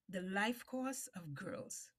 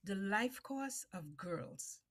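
The two takes are said the same way.

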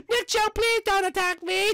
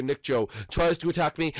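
First: Squeaky high begging voice; high pleading squeal. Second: Said in the usual way. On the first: Shown as a demonstration. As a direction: whine it like a scared little guy. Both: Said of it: "let's say that this man".

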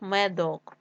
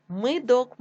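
First: Said in the usual way. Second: Мидок with и instead of е; wrong variant Мидок, first vowel и; и in first syllable. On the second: Shown as a demonstration. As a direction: say Мидок with short i after М.

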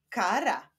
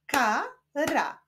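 First: Said in the usual way. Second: KA, pause, RA; syllable by syllable. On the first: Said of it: "Powstaną z nich wyrazy". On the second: Shown as a demonstration. Teacher leading reading practice, Ka-ra split apart. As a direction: say "Kara" in two separate pieces. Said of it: "łączmy sylaby".

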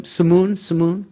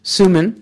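First: "Sumun" stressed on the second syllable, suh-MOON, questioning; trying a pronunciation. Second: "Suman" as SOO-mun, first syllable stressed; corrected pronunciation. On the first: Host checks a guest's name, trying "Sumun" as suh-MOON. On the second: Host repeats the guest's name, "Suman" corrected to SOO-mun. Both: Real, not acted. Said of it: "do I pronounce it".

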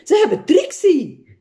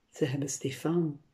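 First: High-pitched cry of alarm; calling out. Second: Soft mumble. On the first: Cook and mother seeing Trixie taken, high alarmed cry. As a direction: wail out the news, high and strong. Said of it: "riepen Kokkie en Trixie's moeder". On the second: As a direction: mumble it under your breath. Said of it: "mompelde ik zachtjes". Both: A narrator's reading.

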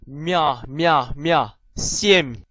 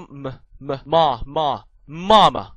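First: M said "mye, mya", palatalized; soft M. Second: Plain m, then 媽 as "ma"; hard M. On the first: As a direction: drill M with a y-glide, ending on семь. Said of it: "軟音". (軟音m，M加耶音讀) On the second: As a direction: drill M and 媽 slowly with no y-glide. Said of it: "硬音M". (硬音m，慢慢讀媽) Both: Shown as a demonstration.

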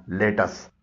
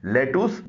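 First: लेटस with weak ending, "LET-us"; correct pronunciation. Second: लेटूस ending in long "oos"; wrong pronunciation. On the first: Teacher modelling for learners, लेटस as let-us. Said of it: "इसका दुरुस्त तलफ़ुज़ है". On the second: Teacher warning learners off लेटूस with long oo. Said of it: "इसे लेटूस न बोलिएगा". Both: Shown as a demonstration.

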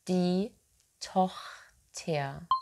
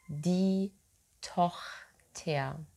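The two takes are said the same way.

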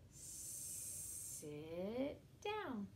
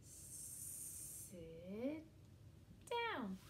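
No difference in how they are said.

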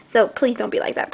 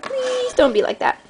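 First: Said in the usual way. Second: Much higher whiny please. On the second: Shown as a demonstration. Asking viewers to be kind, higher and pleading. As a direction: whine it as a plea. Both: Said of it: "repeated higher".

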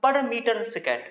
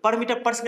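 First: Higher-pitched "per meter second", with just one per; model reading. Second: Higher-pitched "per meter per second", with both pers spoken; reading not to use. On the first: Teacher shows students how to read the unit, model reading. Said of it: "पढ़ेंगे". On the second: Teacher shows students how not to read the unit, rejected-example reading. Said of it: "नहीं पढ़ेंगे इसको". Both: Shown as a demonstration.

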